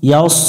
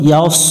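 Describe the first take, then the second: No difference in how they are said.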